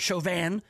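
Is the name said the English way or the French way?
French. The name is said with a French pronunciation.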